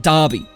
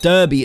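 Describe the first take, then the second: First: The first syllable sounds like 'dar'. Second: The first syllable sounds like 'dur'. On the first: It is how the place name is really said. The speaker calls it right. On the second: It is read as it is spelled. The speaker calls it wrong.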